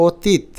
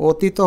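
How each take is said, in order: First: অতীত ending on a bare t; final consonant closed. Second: অতীত with an extra 'o' at the end; don't cut the ত in অতীত, end on 'o'; final vowel voiced. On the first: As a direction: say অতীত as 'o-teet'. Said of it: "চাপটা প্রয়োগ করি না". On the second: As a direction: say অতীত as 'o-tee-to'. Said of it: "আমরা তো অতীত বলি না". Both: Shown as a demonstration.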